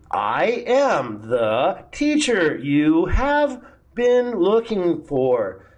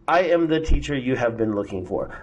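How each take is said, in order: First: The pitch does not fall steadily from the start. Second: The pitch starts high and falls to the end. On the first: The speaker calls it wrong. "that's not how you would say that" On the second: The speaker calls it right. "It just starts at the top"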